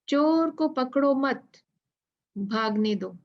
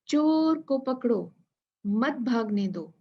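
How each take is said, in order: First: The pause comes after 'mat'. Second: The pause comes after 'pakdo'.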